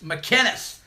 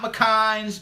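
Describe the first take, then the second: First: The name is pronounced McInnes. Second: The name is pronounced McKines. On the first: The speaker calls it right. "McInnes, not McKines" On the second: The speaker calls it wrong. "not McKines"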